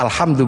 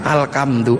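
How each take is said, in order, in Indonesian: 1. Kata ini memiliki bunyi h setelah al. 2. Kata ini memiliki bunyi k setelah al.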